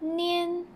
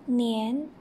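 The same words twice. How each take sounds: First: The pitch stays high and level. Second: The pitch rises from middle to high.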